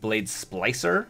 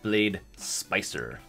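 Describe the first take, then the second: First: The second word has an L after the P. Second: The second word has no L after the P. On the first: The speaker calls it right. "instead of saying Blade Splicer" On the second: The speaker calls it wrong. "I totally mispronounced it"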